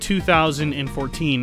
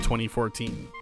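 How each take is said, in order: First: The year is read as two thousand fourteen. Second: The year is read as twenty fourteen. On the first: This reading gives the title more syllables. "22 if you pronounced it 2014" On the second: This reading gives the title fewer syllables. "instead of 2014"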